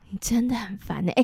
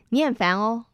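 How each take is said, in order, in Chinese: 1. 这句话是用悲伤、哀愁的语气说的。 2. 这句话是用欢快、开心的语气说的。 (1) "那如果很哀愁，非常悲伤" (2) "喜悦的感觉说你很烦"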